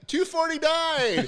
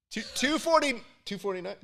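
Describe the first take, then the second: First: Very high, drawn-out call; slow high holler of the number; yelled price guess. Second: High, halting, held-back call; hesitant price call. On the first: Contestant passing on the crowd's price, high mock yell. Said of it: "when people were yelling it out". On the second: Contestant echoing the crowd's shouted price, high and unsure. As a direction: stammer out a guess in a high voice. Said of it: "I was doing this where I was like". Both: Retold or imitated.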